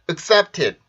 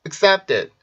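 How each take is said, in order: First: The last syllable has a crisp, aspirated t. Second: The last syllable has a soft, d-like sound. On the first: The speaker calls it wrong. "이게 아니라" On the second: The speaker calls it right. "did처럼 발음이 될 거예요 ... 훨씬 자연스럽습니다"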